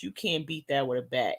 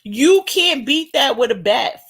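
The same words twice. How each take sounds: First: Softer repeat. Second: Loud and high. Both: Real, not acted.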